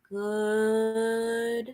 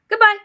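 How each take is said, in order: First: It is said very slowly. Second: It is said very fast.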